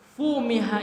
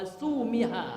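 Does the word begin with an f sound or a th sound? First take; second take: f sound; th sound. First: The word begins with an f sound. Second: The word begins with a th sound. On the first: "fumiha itu diganti fa-nya dengan sa" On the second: "diganti fa dengan sa ya dibaca wasumiha"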